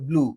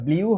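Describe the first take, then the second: First: The vowel is a plain 'oo'. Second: The vowel glides like 'yoo'. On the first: The speaker calls it right. "এটা হবে ব্লু" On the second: The speaker calls it wrong. "এটা ব্লিউ হবে না"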